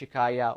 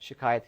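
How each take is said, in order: First: The word ends in an open vowel, no t. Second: The word ends with a final t sound. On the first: This is the Arabic form of the word. "in Arabic it would be shikaya" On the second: This is the Persian form of the word. "it becomes like farsified"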